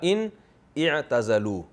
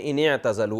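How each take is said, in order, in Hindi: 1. दोनों शब्द अलग-अलग बोले जाते हैं, अलिफ़ बोला जाता है। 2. दोनों शब्द मिलाकर बोले जाते हैं, अलिफ़ साइलेंट रहता है। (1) "असल में था" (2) "मिला के पढ़ेंगे"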